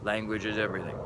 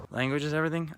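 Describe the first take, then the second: First: Said in the usual way. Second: "Language is everything?" pitched up as a question; questioning echo. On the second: Acted. Host mock-questioning his own thesis, "everything" raised in doubt. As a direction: lift "everything" high, as if doubting it.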